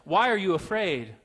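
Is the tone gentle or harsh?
harsh. It is said harshly, like a rebuke.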